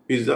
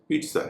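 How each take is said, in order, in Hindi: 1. बीच का व्यंजन j की आवाज़ है। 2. बीच का व्यंजन ts की आवाज़ है। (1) "उसका भी सही उच्चारण पिज्जा नहीं है" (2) "पिज्जा है"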